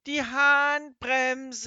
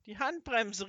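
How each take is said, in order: First: Drawn-out, far louder, much higher yell; full shout. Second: Calling the warning, higher and louder; called out. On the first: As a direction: bellow it over the roaring engine. Shouting over engine noise. (langgezogener, sehr lauter Schrei über den Motorlärm) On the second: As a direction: shout over the engine. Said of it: "riefen Kasper und Seppel". (gerufene Warnung, höher und lauter) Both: A narrator's reading.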